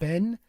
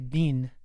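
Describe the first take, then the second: First: The vowel sounds like the one in 'Ben'. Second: The vowel sounds like the one in 'bean'. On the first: This is the speaker's own way of saying it. "I pronounce it Ben" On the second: Other people say it this way. "I've also heard people say bean"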